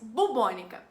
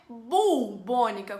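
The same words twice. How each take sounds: First: No L sound is heard in the first syllable. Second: An L sound is heard in the first syllable. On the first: The speaker calls it right. "mas bubônica" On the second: The speaker calls it wrong. "não é bubônica com L"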